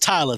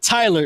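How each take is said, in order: First: The final r sound is dropped. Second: The final r sound is pronounced. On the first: The speaker calls it right. "It's Tyler. T Y L A" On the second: The speaker calls it wrong. "It's not Tyler"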